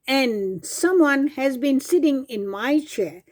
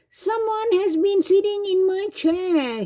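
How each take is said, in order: First: It is said in a medium Mama Bear voice. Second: It is cried in a small Baby Bear voice.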